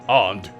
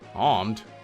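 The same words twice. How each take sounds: First: It is said in a put-on Asian accent. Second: It is said in the speaker's plain voice.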